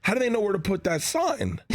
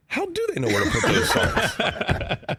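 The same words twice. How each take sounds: First: Lightly voiced questioning kid, higher pitch; daughter's question. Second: High, slow retelling breaking into laughter; slow high-pitched wondering through laughs; pondering to himself. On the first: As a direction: imitate a daughter reasoning with dad, mildly. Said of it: "She goes, "Well, Dad, I'm just saying". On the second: Retold or imitated. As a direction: retell your own baffled thought, laughing. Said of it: "thinking to myself, honestly".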